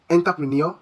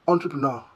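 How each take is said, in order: First: Entrepreneur as anglicised en-ta-pri-NEER, questioning; mispronounced entrepreneur. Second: Entrepreneur as on-truh-pruh-NAW, lower and falling; correct French-style entrepreneur. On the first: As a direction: ask it as "entapreneer", rising at the end of entrepreneur. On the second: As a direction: say entrepreneur with nasal French "on" and open "naw" ending. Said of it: "The correct pronunciation should be". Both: Shown as a demonstration.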